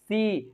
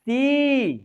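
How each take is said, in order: First: The vowel is said at a plain pitch. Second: The vowel is said at a high pitch. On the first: The speaker calls it wrong. "ऐसे नहीं बोलना है मेरे friends" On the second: The speaker calls it right. "सी high जा रहा है"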